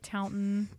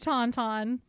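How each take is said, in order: First: The second syllable is a reduced 'ton'. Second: Both syllables are said alike, as 'taun'. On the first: "I bet you $20 it's pronounced Taunton" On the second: "I'm just pronouncing it Tauntaun"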